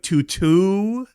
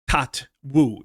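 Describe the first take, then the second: First: The name is said like 'two-two'. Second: The name is said like 'tat-woo'. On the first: "it's supposed to be like T O T W O O, so it's like two two" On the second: "that's the only way I could pronounce it"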